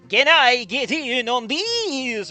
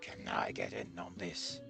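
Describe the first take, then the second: First: It is said in a put-on vampire voice. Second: It is said in a normal voice.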